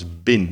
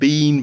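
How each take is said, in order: First: The word is said short and weak. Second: The word is said long and full.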